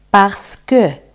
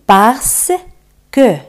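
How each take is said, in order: First: "parce que" joined as two syllables; connected model of "parce que"; repeat-after-me whole word. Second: "parce" and "que" split by a clear pause; slow word-by-word drill of "parce que"; repeat-after-me syllables. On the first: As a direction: say "parce que" together, without a gap. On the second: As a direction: hold "parce", then place "que" separately. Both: Shown as a demonstration. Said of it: "Repetid conmigo".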